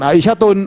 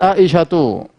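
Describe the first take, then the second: First: The word ends with an added n sound. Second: The word ends in a vowel without n. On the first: The speaker calls it wrong. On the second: The speaker calls it right.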